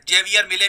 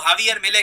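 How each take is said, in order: First: The first name begins with a J sound. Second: The first name begins with an H sound. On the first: This is how people in India often say it. The speaker calls it wrong. "India में हम लोग काफी बार जेवियर मिले भी कह देते हैं" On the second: This is how Argentine media say it. The speaker calls it right. "Argentina में, उनके मीडिया में इनको हावियर मिले कहते हैं"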